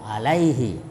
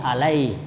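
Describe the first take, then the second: First: The word ends with a short vowel after h. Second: The word ends on h with no vowel. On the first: The reading continues without stopping. "huruf ha tidak boleh dipanjangkan" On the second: The reader stops at this word. "Tapi kalau berhenti alaih"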